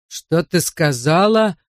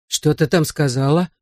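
First: Slow, drawn-out stress on "сказала"; threatening repeat. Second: Understated menacing question. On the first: Drunk husband repeats question to his wife, slow threat. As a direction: stretch "сказала" slowly into a threat. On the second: Drunk husband first challenges his wife, understated menace. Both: A narrator's reading.

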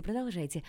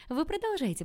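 First: Said in the usual way. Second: Higher, louder, eager push; a burst of amused eagerness; eager urging. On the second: A narrator's reading. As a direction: egg her on with delight. Eager girl urges her on.

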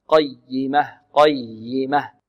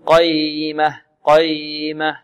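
First: Slow "قيمة" with firm pressure on the doubled ي; stressed doubled ي. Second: "قيمة" mispronounced with a slack, drawn ي and no doubling; unstressed ي. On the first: Teacher corrects the mistake, stressed doubled ي in "قيمة". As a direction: press into the ي of "قيمة" and hold it briefly. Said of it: "والياء هنا مشددة، نبر". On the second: Teacher shows what not to say, slack undoubled ي in "قيمة". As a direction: slide through the ي in "قيمة" without pressing on it. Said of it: "لا نقول". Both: Shown as a demonstration.

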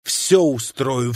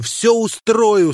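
First: Said in the usual way. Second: A rush of gladness, high and loud; joyful. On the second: Acted. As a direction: burst of joy, much higher and louder. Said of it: "чувствуя неожиданный прилив радости".

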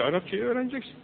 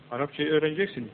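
First: "Arapçayı öğreneceksin" pitched higher, urging; raised, insistent "öğreneceksin"; insistent command. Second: Said in the usual way. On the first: Shown as a demonstration. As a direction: push "öğreneceksin" up like an order.

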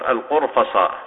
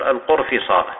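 First: القرفصاء said with a on the fa, qurfaṣā'; teacher shows القرفصاء as al-qurfaṣā'; fatha on the fa. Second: القرفصاء said with i on the fa, qurfiṣā'; teacher shows القرفصاء as al-qurfiṣā'; kasra on the fa. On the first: Teacher showing students the fatha variant, القرفصاء with open a. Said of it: "ويجوز فتح الفاء تقول". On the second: Teacher showing students the kasra variant, القرفصاء with i. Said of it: "ويجوز كسر الفاء تقول". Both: Shown as a demonstration.

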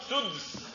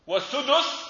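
First: سدس as suds, no vowel after d; slow single syllable for سدس, d straight into s; sukun on dal. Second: والسدس as was-sudus, u after d; higher, two syllables su-dus in والسدس; damma on dal. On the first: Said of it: "أو إسكانها في السدس". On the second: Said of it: "وفي ضم". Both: Shown as a demonstration.

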